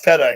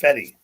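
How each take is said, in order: First: The name ends with an 'ah' vowel sound. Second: The name ends with an 'ee' vowel sound. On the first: The speaker calls it wrong. "It's not feta" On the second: The speaker calls it right. "it's Fetty"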